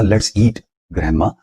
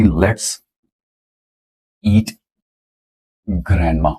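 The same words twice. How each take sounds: First: Punctuated reading with a pause after eat; comma after eat. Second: let's eat grandma read slowly word by word, no comma pause after eat; mispunctuated sentence read out. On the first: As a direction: break after eat, grandma rising. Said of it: "comma जो था ईट के बाद था". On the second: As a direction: drag out the unpunctuated reading. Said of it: "ये missed ... punctuated है". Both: Shown as a demonstration.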